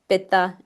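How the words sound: It is said with a traditional Sanskrit pronunciation. "in Ayurveda, we teach"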